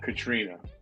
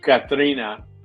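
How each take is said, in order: First: The name is said with an English accent. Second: The name is said with a Spanish accent. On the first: The speaker calls it wrong. "not Katrina" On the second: The speaker calls it right. "say Katrina"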